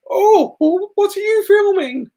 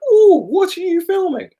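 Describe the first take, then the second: First: High, fluttery old lady impression. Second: Put-on very high, sweet old lady. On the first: Imitating an old lady asking the vlogger what he films, high and sweet. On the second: Repeating the old lady's question to the vlogger, very high and sweet. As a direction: chirp it like a lovely old lady. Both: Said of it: "She sounded just like that".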